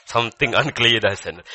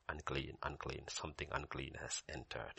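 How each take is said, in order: First: Loud proclamation of alarm; mock warning. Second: Low, very soft announcement; mock warning. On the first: Grandpa reacting as Siri runs in, loud mock warning. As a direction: call it out forcefully as a warning. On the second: Grandpa to Siri with the sandals, hushed mock warning. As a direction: intone it low, under the breath.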